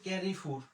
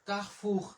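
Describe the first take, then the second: First: The first vowel is an English-like 'eh' sound. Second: The first vowel is an open 'ah' sound. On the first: The speaker calls it wrong. "কিন্তু আমরা ইংরেজিতে বলি" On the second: The speaker calls it right. "সে আ কা আর ও কার"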